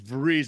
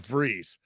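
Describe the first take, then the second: First: It begins with a V sound. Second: It begins with an F sound. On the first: The speaker calls it wrong. "it's not Vries with a V" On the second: The speaker calls it right. "more of an F sounding uh"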